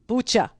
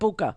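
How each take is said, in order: First: The word sounds like 'butcher'. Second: The word does not sound like 'butcher'. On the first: The speaker calls it right. "Like butcher" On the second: The speaker calls it wrong. "Not Bucha"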